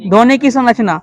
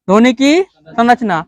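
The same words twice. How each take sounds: First: Said in the usual way. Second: Slow, word by word; slow dictation. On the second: Shown as a demonstration. Teacher dictating the topic to the class, slowly. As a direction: spell it out slowly so students can write. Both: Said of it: "teacher repeats the topic for dictation".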